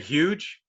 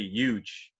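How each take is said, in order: First: The starting H sound is clearly pronounced. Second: The starting H sound is dropped. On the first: This is not how New York City people say it. "They don't say huge" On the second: This is how New York City people say it. "They say huge. The H kind of gets lost"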